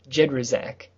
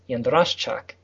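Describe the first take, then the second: First: The name is said with simplified English sounds. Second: The name is said with Polish sh, ch, y sounds. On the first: "It has been simplified for silly Americans down to" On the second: "But the original Polish pronunciation is"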